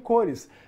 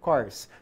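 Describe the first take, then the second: First: It is said as a two-syllable Portuguese word. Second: It is said as a one-syllable English word. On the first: It means colors. The speaker calls it wrong. "você não leu cores" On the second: It means processor cores. The speaker calls it right. "são cores, são núcleos do processador"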